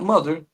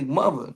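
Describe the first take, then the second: First: The final R sound is clearly pronounced. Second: The final R sound is dropped. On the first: "not mother" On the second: "I say mother"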